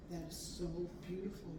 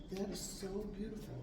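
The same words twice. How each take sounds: The two takes are said the same way.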